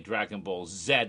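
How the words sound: It is said in a put-on British accent.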